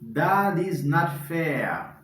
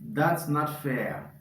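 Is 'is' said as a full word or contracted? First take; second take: full; contracted. First: The word 'is' is said in full. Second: The word 'is' is contracted onto 'that'.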